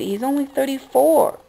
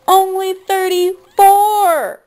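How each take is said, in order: First: Said in the usual way. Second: High, loud, slow outcry, voice straining; anguished cry. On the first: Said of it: "I'm just shooked about this". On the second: Real, not acted. Vlogger crying out that the dead singer was so young, anguished shout. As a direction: wail it out in real disbelief. Repeats age in outrage.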